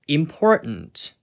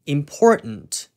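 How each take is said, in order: First: An American accent with the t swallowed. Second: An American accent with the t swallowed.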